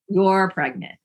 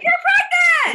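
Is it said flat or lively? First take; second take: flat; lively. First: It is said in a flat, toneless voice. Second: It is said in a lively, excited voice.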